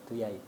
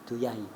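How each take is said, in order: No difference in how they are said.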